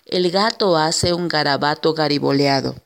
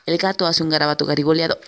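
First: The sentence is spoken slowly. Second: The sentence is spoken fast. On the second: "y después cada vez más rápido"

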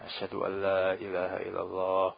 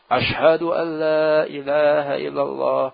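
First: The phrase is said quietly and softly. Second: The phrase is said loudly and strongly. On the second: "Tiba-tiba keras"

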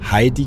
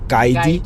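First: The name begins with a breathy H sound. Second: The name begins with a throaty G-like sound. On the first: "der hat er halt nicht Heidi gesagt" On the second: "sondern Geidi"

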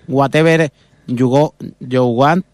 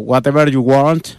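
First: It is said in a Spanish-accented English. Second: It is said in an American English accent. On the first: "o si eres de Moncada, pues" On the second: "o eres de Los Ángeles"

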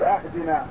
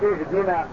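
First: The word begins with an 'a' vowel. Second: The word begins with an 'i' vowel. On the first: The speaker calls it wrong. "يقول أهدنا، فهذا لا تصح معه الصلاة" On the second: The speaker calls it right. "بدلا من أن يقول اهدنا"

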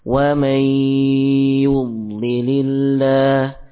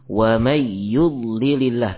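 First: A nasal hum is held before the y. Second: The nasal hum before the y is left out. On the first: The speaker calls it right. "namun diberikan dulu sifat gunah" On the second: The speaker calls it wrong. "tidak demikian"

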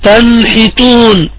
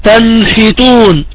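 Both takes have the same delivery.

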